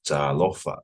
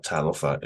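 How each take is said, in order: First: "talofa" with the first "a" dragged out; "talofa" with a lengthened opening syllable, emphasis second to last; long first vowel. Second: "talofa" with a quick, undragged first "a"; "talofa" without lengthening the opening syllable; short first vowel. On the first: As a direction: drag the "ta", stress the "lo" in "talofa". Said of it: "Make sure that you drag". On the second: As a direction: rush past the "ta" in "talofa". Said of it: "So it's not talofa". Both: Shown as a demonstration.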